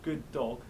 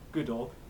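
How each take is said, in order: First: A doubled, long d links the words. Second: A single short d links the words. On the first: The speaker calls it right. "but good dog" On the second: The speaker calls it wrong. "not good dog"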